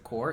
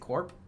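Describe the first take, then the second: First: The word ends without a p sound. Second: The word ends with a clear p sound. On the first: "Is it Core?" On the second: "Is it Corp?"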